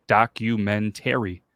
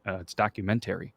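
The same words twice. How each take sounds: First: "Documentary" said slow, each syllable clear; documentary, spelled out slowly. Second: "documentary" with a t sound: tackumentary; kid's pronunciation of "documentary"; documentary as the kid says it. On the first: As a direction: read "Documentary" off the page, slowly. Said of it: "Read it". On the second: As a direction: say "documentary" starting with a t. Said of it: "How do you say this?". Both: Retold or imitated.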